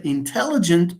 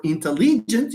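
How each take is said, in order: First: "intelligent" with second syllable TEL stressed. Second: "intelligent" as in-te-LEE-gent; "intelligent" with a stressed, stretched LEE. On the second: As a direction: lean on the third syllable LI in "intelligent". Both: Shown as a demonstration. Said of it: "whether you say intelligent or intelligent".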